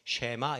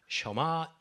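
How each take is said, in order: First: The first syllable has an 'eh' vowel. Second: The first syllable has an 'uh' vowel. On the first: This is how it is usually written in Korean. "우리가 보통 이제 한국에서는 쉐, 쉐마 이렇게 이제 적은 것을 보는데" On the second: This is how it is actually pronounced. "발음은 셔마 이스라엘 이렇게 이제 하죠"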